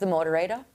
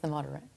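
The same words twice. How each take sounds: First: It is said in an Australian accent. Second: It is said in an American accent. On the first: "I like the Aussie accent" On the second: "it's better when it's in an American accent"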